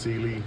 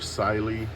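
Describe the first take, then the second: First: The first syllable sounds like see. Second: The first syllable sounds like sai. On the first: The speaker calls it right. "but it is pronounced Sealy" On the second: The speaker calls it wrong. "or Siley because of the C Y"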